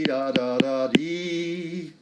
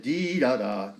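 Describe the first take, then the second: First: Sung, slower. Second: Said in the usual way. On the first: Shown as a demonstration. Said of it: "instead of this dee da da". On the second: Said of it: "Instead of dee da da".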